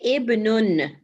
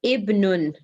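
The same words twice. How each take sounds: Both takes have the same delivery.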